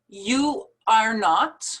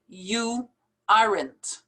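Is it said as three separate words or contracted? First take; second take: separate words; contracted. First: It is said as three full separate words. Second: It is contracted, ending clearly on n and t.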